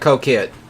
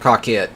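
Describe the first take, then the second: First: The name sounds like 'co-ket'. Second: The name sounds like 'car kit'. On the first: "I believe that's how it's pronounced" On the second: "That's how I pronounce it"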